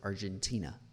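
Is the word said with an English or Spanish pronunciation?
English. The word is said with English pronunciation. The speaker shows command of English. "as if you were just a native English speaker"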